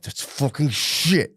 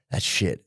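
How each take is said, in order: First: Higher, slow mock despair; mock-anguished, drawn-out realisation; mounting dismay. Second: Lower, subdued admission; mock dawning dread; resigned realisation. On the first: Grief stages, mounting dismay. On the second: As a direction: let it sink in, low and resigned. Grief stages, dawning acceptance.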